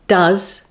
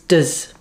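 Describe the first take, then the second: First: The word is said in its full strong form. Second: The word is said in its reduced weak form.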